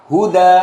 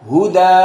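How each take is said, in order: Both takes have the same delivery.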